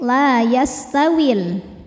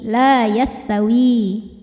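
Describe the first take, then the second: First: The final vowel is short, linked to the next word. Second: The final vowel is held long at a stop. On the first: "saat diwasolkan maka madnya ini gugur, wawunya jadi pendek" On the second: "Ketika berhenti di wi, maka kita panjangkan dua harokat"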